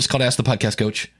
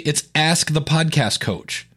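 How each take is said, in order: First: The name is rushed and mumbled together. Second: The name is said slowly with careful articulation.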